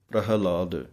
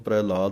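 First: The word is said with a clear h sound. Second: The word is said without an h sound. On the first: The speaker calls it right. "ਹਾਹੇ ਦੀ ਆਵਾਜ਼ ਦੇਣੀ ਹੈ" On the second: The speaker calls it wrong. "ਇਹਨੂੰ ਪ੍ਰਹਿਲਾਦ ਨਹੀਂ ਕਹਿਣਾ"

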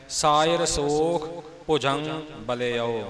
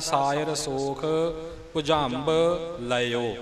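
First: The phrase ends with the word balio. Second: The phrase ends with the word laio. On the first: "ਜਿਹੜਾ ਸ਼ੁੱਧ ਪ੍ਰਮੁੱਖ ਰੂਪ ਹੈ ਉਹ ਇਹੀ ਹੈ" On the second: "ਦੂਸਰੇ ਰੂਪ ਵਿੱਚ ਇਸ ਦਾ ਪਾਠ ਇਉਂ ਵੀ ਹੁੰਦਾ"

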